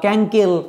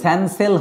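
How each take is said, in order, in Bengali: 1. দুটো c-ই k ধ্বনিতে উচ্চারিত হয়। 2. দুটো c-ই s ধ্বনিতে উচ্চারিত হয়। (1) "ক্যাঙ্কেল এগুলো হচ্ছে না" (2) "স্যানসেল হচ্ছে না উচ্চারণটা"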